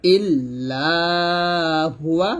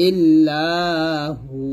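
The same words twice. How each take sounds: First: "ইল্লাহুয়া" chanted slowly, ending in hu-wa; full ending "ইল্লাহুয়া". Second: "ইল্লাহু" chanted slowly, ending on long hu; pausal ending "ইল্লাহু". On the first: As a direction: intone "ইল্লাহুয়া", sounding the final wa. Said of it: "থামলে আমরা শুধু হু বলবো". ("ইল্লাহুয়া" শেষে ওয়া-সহ টেনে) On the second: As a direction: drop the wa and hold the hu of "ইল্লাহু". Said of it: "এইটুকু আমরা বাদ দিয়ে দিব". ("ইল্লাহু" শেষে হু টেনে থামা) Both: Shown as a demonstration.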